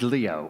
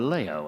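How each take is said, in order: First: It is said with an English pronunciation. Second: It is said with a French pronunciation.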